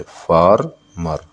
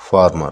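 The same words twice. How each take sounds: First: "farmer" slowly as फार, pause, मर; syllable by syllable. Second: Said in the usual way. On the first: Shown as a demonstration. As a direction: break "farmer" into two beats. ("Farmer" को फार... मर, अलग-अलग) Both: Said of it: "farmer में दो syllable है".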